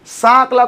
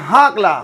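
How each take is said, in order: First: The word begins with an s sound. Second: The word begins with an h sound. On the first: This is the standard way the name is said. "हमारे गांव में सांकला है ना, सांकला नहीं बोलते" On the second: This is how people in the village say it. "सांकला को अपन बोलते हैं हाकला"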